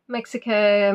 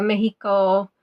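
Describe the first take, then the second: First: Said in the usual way. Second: "Mexico" with a Spanish h sound for the x; Spanish pronunciation. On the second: Shown as a demonstration. Quizmaster reading out answers, "Mexico" pronounced the Spanish way, MEH-hee-ko.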